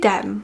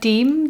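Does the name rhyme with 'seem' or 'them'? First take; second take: them; seem. First: The vowel is short, rhyming with 'them'. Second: The vowel is long, rhyming with 'seem'. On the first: The speaker calls it right. "as if like short for Demi" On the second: The speaker calls it wrong. "Deem doesn't sound right in my head"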